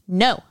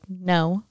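First: The word is said firmly and more loudly. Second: The word is said softly and gently. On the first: A tough working dog needs a stronger correction. "A Malinois is going to be like" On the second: A fearful, soft dog needs only a mild correction. "you can tell a Chihuahua probably be like"

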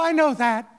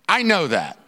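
First: It sounds bright, pleased and comforted. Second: It sounds flat, dismissive and unhappy. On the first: The promise brings comfort. The speaker calls it wrong. "The tone isn't, oh, I know that. Wonderful" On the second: The promise brings no comfort. The speaker calls it right. "So that's the tone here"

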